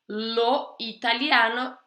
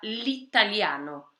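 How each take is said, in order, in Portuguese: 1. A vogal de lo é mantida antes de italiano. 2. A vogal de lo cai antes de italiano. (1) "Lo italiano vira l'italiano" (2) "vira l'italiano"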